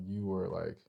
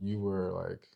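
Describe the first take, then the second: No difference in how they are said.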